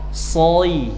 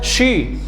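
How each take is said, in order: First: It starts with a thick, hissing 's' sound. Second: It starts with a 'sh' sound. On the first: The speaker calls it right. "Melatih tebalnya huruf shad" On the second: The speaker calls it wrong. "Jangan sampai dibaca shi"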